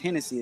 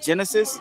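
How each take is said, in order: First: The name begins with an H sound. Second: The name begins with a J sound. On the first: "in Spanish it's pronounced Hennessy" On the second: "like Genesis"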